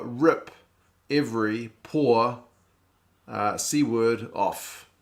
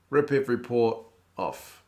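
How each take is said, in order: First: Slow, deliberate acronym reveal, each word separated; spelled out slowly. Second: Said in the usual way. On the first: Shown as a demonstration. Streamer decoding the Repco name for chat, slow and deliberate. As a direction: lay out Rip Every Poor word by word, slowly. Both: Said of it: "Repco stands for".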